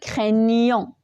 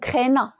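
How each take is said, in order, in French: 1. Il est prononcé avec le son 'ny'. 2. Il est prononcé sans le son 'ny'. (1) "on est appelé d'ajouter le G et avec le N, il va donner le son nieux" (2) "Si on n'ajoute pas le G, donc on aura un problème... c'est faux"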